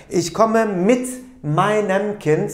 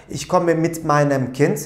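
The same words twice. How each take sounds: First: "Ich komme mit meinem Kind" said slowly, each word set apart; slow model sentence. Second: Said in the usual way. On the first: Shown as a demonstration. Teacher giving the German answer to the class, slow and deliberate. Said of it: "olursam ne diyeceğim?". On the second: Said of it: "ben çocuğumla birlikte geliyorum derken".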